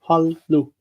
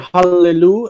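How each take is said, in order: First: The two L sounds run together without a vowel. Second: A short vowel separates the two L sounds. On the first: The speaker calls it wrong. "and not hallu?" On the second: The speaker calls it right. "Why do you say hallelu"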